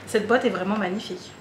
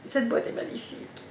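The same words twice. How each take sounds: First: Said in the usual way. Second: Whispered in awe, breathy and soft; admiring whisper. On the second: Real, not acted. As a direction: whisper it as if the box is precious. (chuchoté avec admiration)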